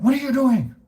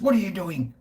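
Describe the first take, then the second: First: Higher and louder mock shriek; much higher, louder take of the angry woman; shrieking shop woman. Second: A lightly voiced upset woman, higher; mock the cranky shopkeeper's challenge; a hint of an annoyed shop owner asking; angry shop woman. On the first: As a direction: imitate her storming out and shrieking. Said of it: "She runs out". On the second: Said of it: "and the woman goes".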